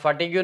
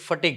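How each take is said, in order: First: The word ends with a 'gyu' sound. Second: The word ends with a plain 'g' sound. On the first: The speaker calls it wrong. "આ ફાટીગ્યું નથી" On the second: The speaker calls it right. "ફટીગ છે"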